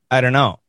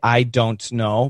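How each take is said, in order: First: The words run together with reduced sounds. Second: Every word is pronounced fully and carefully. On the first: The speaker calls it right. "We say" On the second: The speaker calls it wrong. "They want to say, ... nobody says that"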